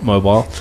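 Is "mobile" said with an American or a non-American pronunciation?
non-American. It is said in a non-American pronunciation. This is not how people in the US say it. "not mobile"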